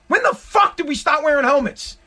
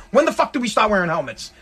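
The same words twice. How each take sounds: First: Raised, incredulous ranting; mock-outraged rant about helmets; exasperated rant. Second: Said in the usual way. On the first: Real, not acted. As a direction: vent at the cyclist, pitch up. Repeated rant question.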